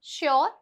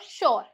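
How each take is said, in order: First: A y-glide follows the sh sound. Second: No y-glide follows the sh sound.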